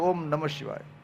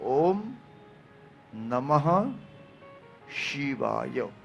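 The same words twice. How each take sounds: First: It is rushed, without the final h in namah. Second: It is careful, with the final h in namah. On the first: The speaker calls it wrong. "ઘણા ઉતાવળમાં બોલે" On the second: The speaker calls it right. "મૂળ ઉચ્ચાર છે"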